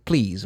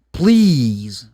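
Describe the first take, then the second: First: Said in the usual way. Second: PLEASE loud and drawn out; a long, emphatic "Please"; stress on PLEASE. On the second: Shown as a demonstration. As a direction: hit "Please" hard and stretch it. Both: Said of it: "you have to emphasize the word".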